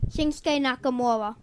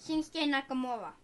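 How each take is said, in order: First: Into the mic. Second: Soft, off-mic answer; said quietly, not into the mic; away from the mic. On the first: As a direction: speak up into the microphone. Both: Real, not acted. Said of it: "You gotta talk into the microphone".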